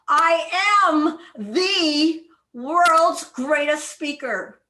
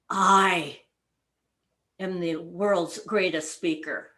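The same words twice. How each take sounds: First: The word "the" is stressed. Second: The word "I" is stressed.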